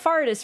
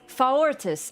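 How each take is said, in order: First: The name is said with two syllables. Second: The name is said with three syllables. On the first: The speaker calls it wrong. "it's not Fartis" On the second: The speaker calls it right. "extra syllable"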